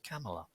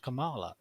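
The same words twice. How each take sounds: First: "Kamala" with stress on the first syllable, KAM-uh-luh; correct pronunciation. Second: "Kamala" with stress on the middle syllable, ka-MAH-la; wrong pronunciation. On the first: Host corrects the senator's name, "Kamala" stressed first, KAM-uh-luh. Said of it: "It's pronounced Kamala". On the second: Host shows how not to say the senator's name, "Kamala" as kuh-MAH-luh. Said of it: "it's not pronounced Kamala". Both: Shown as a demonstration.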